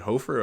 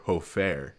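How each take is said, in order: First: "Hofer" as HOE-fer; reduced "-fer" ending on "Hofer"; first pronunciation option. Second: "Hofer" as hoe-FAIR; full "fair" ending on "Hofer"; alternative pronunciation. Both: Shown as a demonstration. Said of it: "Is it Hofer or".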